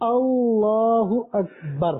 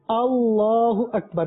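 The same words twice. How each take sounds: First: The phrase is said slowly and drawn out. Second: The phrase is said quickly. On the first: The speaker calls it right. "تو آہستہ آہستہ جائیں گے" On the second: The speaker calls it wrong. "نہیں تیز نہیں آہستہ"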